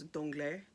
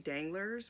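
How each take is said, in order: First: It is pronounced the French way. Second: It is pronounced the English way. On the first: This is how it sounded in the audiobook. "when I was listening to it" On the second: This is how it sounded when read silently. "I didn't read it as French in my head"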